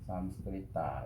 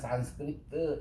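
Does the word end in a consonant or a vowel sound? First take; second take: vowel; consonant. First: The word ends with a final vowel sound. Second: The word ends on a consonant, no final vowel. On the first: This is the original Indian reading. "삼스크리타, 이렇게 읽어요" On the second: This is the English reading. "영어에서는 주로 이 끝에 R을 떼고 그냥 산스크리트 이렇게 읽어요"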